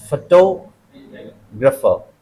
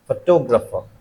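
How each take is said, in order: First: photographer slowly, stress on टो; slow model word. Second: Said in the usual way. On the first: Shown as a demonstration. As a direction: drag out photographer, stress on the second syllable.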